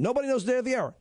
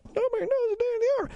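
First: Said in the usual way. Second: High, far-off echo of the listeners; mock crowd repeating back. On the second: Shown as a demonstration. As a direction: voice the audience answering back. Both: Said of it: "Repeat after me again".

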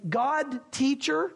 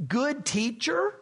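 First: Slow "God teacher," stressing God; "God" not good. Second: Said in the usual way. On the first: Shown as a demonstration. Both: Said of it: "take one of the O's out and say".

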